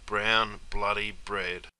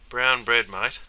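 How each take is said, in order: First: "Brown bloody bread" dropped soft and slow, each word weighed; slow solemn emphasis. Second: Said in the usual way. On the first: Acted. Mate solemnly repeating his grim prediction, slow and soft. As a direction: lay "Brown bloody bread" down slowly and quietly, like a eulogy. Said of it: "That's what I thought you'd be".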